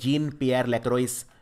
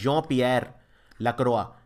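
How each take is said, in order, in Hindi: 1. इस नाम का अंत बोले जाने वाले अंतिम 's' से होता है। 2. इस नाम का अंत मौन अंतिम 's' से होता है। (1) "इसको वैसे लिखते हैं" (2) "लेकिन प्रोनाउंस करते हैं"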